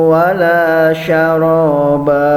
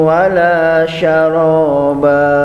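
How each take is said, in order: No difference in how they are said.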